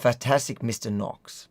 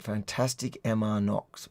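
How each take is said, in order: First: The middle part is said as one word. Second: The middle part is spelled out as letters. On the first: The speaker calls it right. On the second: The speaker calls it wrong.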